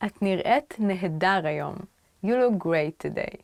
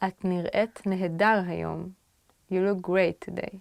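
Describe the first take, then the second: No difference in how they are said.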